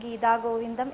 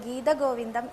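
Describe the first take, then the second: First: The first word ends in a long vowel. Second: The first word ends in a short vowel. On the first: It means the Govinda of the Gita. The speaker calls it wrong. "എന്നല്ല പറയേണ്ടത്" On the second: It means the divine plays of the Lord. The speaker calls it right. "എന്നാണ് പറയേണ്ടത്"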